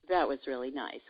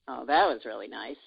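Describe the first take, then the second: First: It is said in a neutral way. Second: It is said in a sarcastic way.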